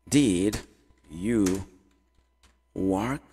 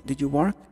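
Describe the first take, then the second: First: Slow, separated words with long pauses. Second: Said in the usual way. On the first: Shown as a demonstration. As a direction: spell out the question one word at a time. Teacher builds question word by word. (palavra por palavra, bem devagar)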